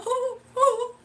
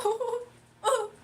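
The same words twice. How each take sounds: First: High, loud hammed-up sob; mock sobbing. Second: High hammed-up whimper; mock crying. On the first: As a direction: wail it like a comic crybaby. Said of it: "And I'll just, I'll just cry". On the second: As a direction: fake a teary ooh, half joking. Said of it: "and I'll just start crying".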